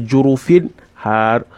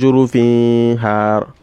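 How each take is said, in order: First: The n sound is clearly pronounced before h. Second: The n sound is blended into the next sound. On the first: The speaker calls it right. "but you say jurufin har. Pronounce it properly from its right point of articulation" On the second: The speaker calls it wrong. "You didn't say jurufin har"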